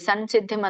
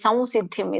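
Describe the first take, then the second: First: The first syllable ends in a plain m sound. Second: The first syllable ends in a v-like nasal sound. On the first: The speaker calls it wrong. "ಸಂಸಿದ್ಧಿಂ ಅಂತ ಹೇಳ್ಬೇಡಿ" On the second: The speaker calls it right. "ಇದು ಸಂ"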